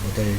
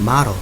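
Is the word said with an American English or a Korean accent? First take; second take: Korean; American English. First: It is said as a Korean loanword. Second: It is said with American English pronunciation. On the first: "모델이라고 하는 거" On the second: "영어 발음으로 제대로 하면은 그 미국식 발음으로는"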